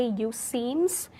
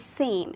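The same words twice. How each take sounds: First: "you seems" with the extra s sound on seems; "you seems" pronounced with the s; wrong form. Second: "seem" ending cleanly with no s; "seem" without the final s; correct form. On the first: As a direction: say "you seems" with an audible s at the end. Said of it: "we do not say". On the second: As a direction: say "seem" with a plain m at the end, no s. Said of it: "it is". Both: Shown as a demonstration.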